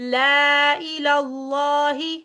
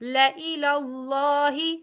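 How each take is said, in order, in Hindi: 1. मूक अलिफ़ को लंबे स्वर की तरह बोला जाता है। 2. अलिफ़ मूक रहता है और स्वर छोटा होता है।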